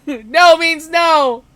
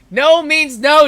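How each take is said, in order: First: Very slow, high laughing shout; laughing louder. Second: Slow, high laughing protest; laughing no means no. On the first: Narrator shouts the rule at the bully, laughing. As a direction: belt it out through laughter. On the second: Narrator breaks off to joke at the bully with a laugh. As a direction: stretch it out through a laugh. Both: Shown as a demonstration. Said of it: "Did you just say no?".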